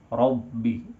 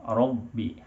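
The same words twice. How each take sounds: The two takes are said the same way.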